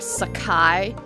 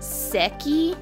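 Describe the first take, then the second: First: The name is said with three syllables, sah-kai. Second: The name is said with two syllables, seh-kee. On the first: The speaker calls it wrong. "for the longest time I called her Sakai" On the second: The speaker calls it right. "I think it's actually pronounced Seki"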